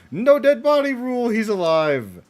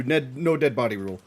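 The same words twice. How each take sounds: First: "No dead body rule" shouted higher and louder; excited repeat. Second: Said in the usual way. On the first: Real, not acted. Viewer proven right about Speedwagon, shouting the rule again. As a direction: crow the rule in triumph.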